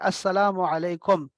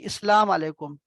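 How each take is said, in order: First: It begins with 'as', doubling the s sound. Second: It begins with 'is', dropping the opening 'a'. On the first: The speaker calls it right. "वो है अस्सलामु अलैकुम" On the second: The speaker calls it wrong. "इस्लाम अलैकुम नहीं बचे"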